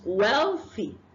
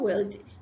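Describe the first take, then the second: First: The middle consonant is a th sound. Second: The middle consonant is a d sound. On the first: The speaker calls it right. "It's wealthy" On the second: The speaker calls it wrong. "We exchange it for d. ... It's not wealthy"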